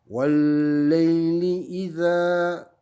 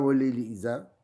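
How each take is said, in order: First: The final a vowel is lengthened. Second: The final a vowel is short. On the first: The speaker calls it right. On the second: The speaker calls it wrong.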